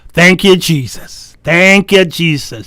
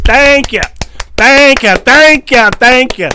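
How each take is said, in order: First: Said in the usual way. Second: Higher and louder, bursting with gratitude; joyful loud thanks. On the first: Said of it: "look at your wife and say". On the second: Retold or imitated. Husband looking at his wife, loud thrilled thanks. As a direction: shout your thanks to heaven.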